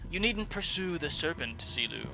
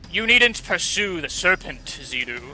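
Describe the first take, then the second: First: The voice is plain and not booming. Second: The voice is loud and booming.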